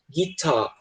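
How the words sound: The final R sound is dropped. "no sotaque britânico, eles tendem a ignorar o som do R"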